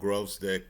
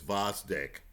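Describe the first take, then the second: First: The name starts with a 'Grove' sound. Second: The name starts with a 'Voz' sound. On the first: The speaker calls it wrong. "I'm prone to mispronouncing names" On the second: The speaker calls it right. "the proper pronunciation is Vosdyk"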